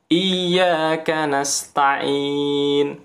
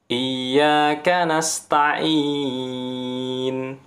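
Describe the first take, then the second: First: The final vowel is held for two counts. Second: The final vowel is held for four counts. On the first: Used when reciting quickly. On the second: Used when reciting at a medium pace.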